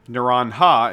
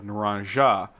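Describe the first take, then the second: First: The name is said with a Spanish pronunciation. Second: The name is said with an English pronunciation. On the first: This is how the person herself says it. The speaker calls it right. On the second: This is not how the person herself says it. The speaker calls it wrong. "instead of"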